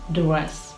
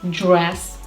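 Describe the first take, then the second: First: The DR is said as a plain D sound. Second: The DR is said like 'j'. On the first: The speaker calls it wrong. "not dur" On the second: The speaker calls it right. "should be pronounced as jr"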